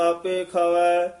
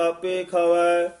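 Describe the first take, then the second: No difference in how they are said.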